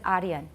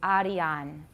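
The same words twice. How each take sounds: First: The unstressed vowel is reduced to a schwa. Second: The unstressed vowel is a full clear vowel. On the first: The speaker calls it wrong. "很自然就念出一个 schwa" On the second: The speaker calls it right. "It's Arian"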